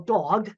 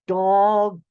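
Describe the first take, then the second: First: The word is said at normal speed. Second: The word is said slowly, each sound enunciated.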